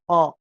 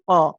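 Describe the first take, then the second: First: The k sound is made far back in the throat. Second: The k sound is made far back in the throat.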